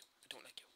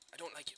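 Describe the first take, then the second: First: Whispered taunt, much softer; soft whispered jab. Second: Said in the usual way. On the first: Pretend. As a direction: breathe it out as a teasing whisper. Repeating taunt, now hushed.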